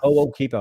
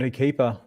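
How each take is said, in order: First: The name begins with a separated 'ho-o' sound. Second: The name begins with a short weak vowel. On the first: The speaker calls it right. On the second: The speaker calls it wrong.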